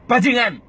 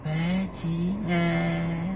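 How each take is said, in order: First: Loud "Bajingan" with a falling end; "Bajingan" played loud in the head; loud insult. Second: Very soft, very slow "Bajingan"; "Bajingan" turned right down; small and quiet. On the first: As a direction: crank the inner voice up. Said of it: "Suaranya kita putar keras kenceng". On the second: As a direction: shrink "Bajingan" to a soft drawn-out murmur. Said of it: "Coba kalau kita kecil". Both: Shown as a demonstration.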